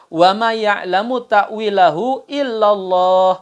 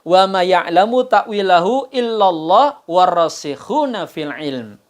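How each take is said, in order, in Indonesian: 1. Bacaannya berhenti sempurna setelah 'Allah'. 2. Bacaannya terus berjalan setelah 'Allah' tanpa berhenti. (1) "Selesai. Baru kalimat baru" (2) "kalau mereka disambung"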